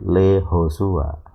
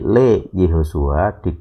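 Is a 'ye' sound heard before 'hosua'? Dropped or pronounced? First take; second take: dropped; pronounced. First: The 'ye' sound is dropped before 'hosua'. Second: The 'ye' sound is pronounced before 'hosua'. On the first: "yodnya tidak dibaca" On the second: "Jadi Le Yehosua dibaca menjadi"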